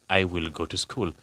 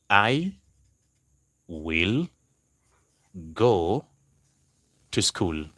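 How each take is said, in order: First: Said in the usual way. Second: Long pauses between I, will, go, to school; word by word. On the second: Shown as a demonstration. Teacher giving the class an example sentence, word by word. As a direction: dictate "I ... will ... go ... to school" piece by piece.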